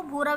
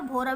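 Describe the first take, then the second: First: भूरा with a long 'oo' after bh; vowel of 'food' in भूरा; ऊ reading. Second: भोरा with a long 'oh' after bh; vowel of 'go' in भोरा; ओ reading. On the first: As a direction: say 'bhoo-raa' for भूरा. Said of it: "भूरा भी पढ़ सकते हैं". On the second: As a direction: say 'bhoh-raa' for भोरा. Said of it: "भोरा भी पढ़ सकते हैं". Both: Shown as a demonstration.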